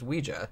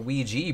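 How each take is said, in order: First: The word ends with an 'ah' sound. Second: The word ends with an 'ee' sound. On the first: The speaker calls it right. "what I always thought was the correct pronunciation" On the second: The speaker calls it wrong. "that's an A at the end. That's not how we say"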